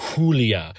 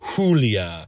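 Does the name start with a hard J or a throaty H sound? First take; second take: throaty H; throaty H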